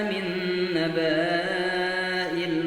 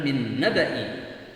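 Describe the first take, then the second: First: The vowel before the hamza is long. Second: The vowel before the hamza is short. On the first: The speaker calls it wrong. "ada orang yang keliru membacanya" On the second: The speaker calls it right. "yang benar adalah min naba'i"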